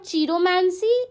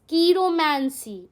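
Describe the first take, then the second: First: The word begins with a 'ch' sound. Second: The word begins with a 'k' sound. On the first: The speaker calls it wrong. "It's not चीरोमैंसी" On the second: The speaker calls it right. "It's कीरोमैंसी"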